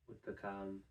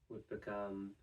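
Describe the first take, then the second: Both takes have the same delivery.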